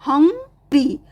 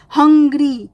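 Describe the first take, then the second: First: हंग्री broken as हंग, ग्री; split into syllables. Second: Said in the usual way. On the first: Shown as a demonstration. (हंग्री में हंग और ग्री अलग-अलग) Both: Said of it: "दो syllable हैं".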